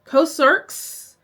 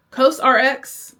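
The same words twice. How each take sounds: First: "Cosrx" run together as one word, COSE-erks; unsure pronunciation. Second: "Cosrx" with the letters R-X spelled out, cose-ar-ex; unsure pronunciation. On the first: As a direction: say "Cosrx" as two syllables, questioning. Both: Shown as a demonstration. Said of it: "I don't know how to say it".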